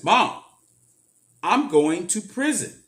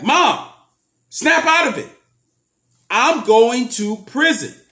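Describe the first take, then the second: First: Said in the usual way. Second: Loud, high, sharp snap; harsh outburst. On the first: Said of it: "I just said like this". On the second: Retold or imitated. Telling mom to snap out of it, loud high outburst. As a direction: jolt her out of denial with a loud cry. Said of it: "I didn't say it like that".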